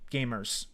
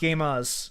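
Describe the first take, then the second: First: The R sound is hard and strong. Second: The R sound is soft and weak. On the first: The speaker calls it right. "Hard R" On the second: The speaker calls it wrong. "Not gamers"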